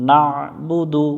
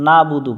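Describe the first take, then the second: First: না বুদু with ain squeezed from the throat; throat-pressed ain. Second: না বুদু without the throat ain; plain না বুদু, no squeezed throat sound; wrong pronunciation. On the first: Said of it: "আইনটা গলার মধ্য থেকে একটু চেপে". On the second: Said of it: "না বুদু পড়া যাবে না". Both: Shown as a demonstration.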